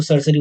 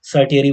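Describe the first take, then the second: First: सरसरी, said with two s sounds and no t; certiorari as sarsari. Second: सर्टियरी, with a t sound after "sar"; certiorari as sartiyari. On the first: Teacher showing students how some say it, सरसरी as "sar-suh-ree". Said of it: "कई लोग इसको सरसरी बोलते हैं". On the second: Teacher showing students the other pronunciation, सर्टियरी with a t. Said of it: "सर्टियरी बोलते हैं". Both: Shown as a demonstration.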